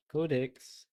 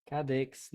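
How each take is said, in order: First: "Codex" slowly, with a long O; corrected pronunciation. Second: "Cadex" with an A in the first syllable; mispronounced Codex. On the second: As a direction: slip on the first vowel of "Cadex". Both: Real, not acted. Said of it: "no, Codex".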